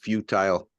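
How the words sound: It is said the Canadian way.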